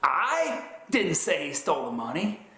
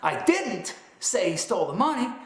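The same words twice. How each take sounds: First: The stress is on "I". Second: The stress is on "didn't".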